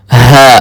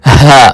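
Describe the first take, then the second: First: ہا said as plain English h; the wrong way, English h; teacher showing the mistake, plain English h. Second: ہا breathed from the deepest throat; the right way, from the back of the throat; correct ha. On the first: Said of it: "اس کو ہا نہیں پڑھنا". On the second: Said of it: "بلکہ". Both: Shown as a demonstration.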